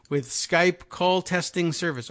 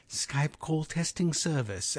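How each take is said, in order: First: Said in the usual way. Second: Softer imitation of the English accent of the Skype test lady. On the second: Host mimicking Skype's recorded test lady, English accent. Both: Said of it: "as they like to say it".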